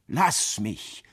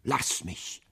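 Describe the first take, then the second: First: Mildly sobbing, voiced again; voiced sobbing plea. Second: Whispered, voiceless plea through a sob; dying wife, whispering her plea; sobbing whisper. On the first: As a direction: let the voice come back under the tears. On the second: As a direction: beg to be left, breath only. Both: A narrator's reading. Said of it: "schluchzte Catherine".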